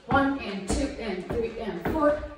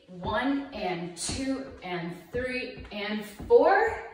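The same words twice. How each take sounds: First: The counts are said quickly. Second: The counts are said slowly.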